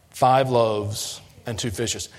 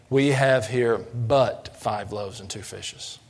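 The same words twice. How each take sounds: First: Slow, doubtful and grudging; faith-lacking. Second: Slow, doubtful and reluctant; faith-lacking. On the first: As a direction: say it like you barely believe it. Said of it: "they said it in a very faith-lacking way". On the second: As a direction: read it as if it's nothing much. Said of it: "faith-lacking way". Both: Shown as a demonstration.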